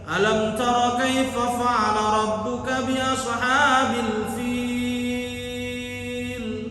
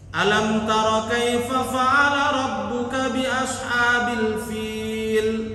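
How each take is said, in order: First: The long vowel is stretched out well beyond two beats. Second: The long vowel is held for only two beats. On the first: The speaker calls it wrong. "Salah ini" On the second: The speaker calls it right. "Itu cuman dua harokat itu"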